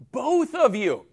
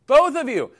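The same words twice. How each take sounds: First: Said in the usual way. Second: Both punched higher and louder; stress on both. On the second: Shown as a demonstration. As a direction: hit the word Both hard, then fall. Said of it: "I'm gonna help both of you, not just Aaron".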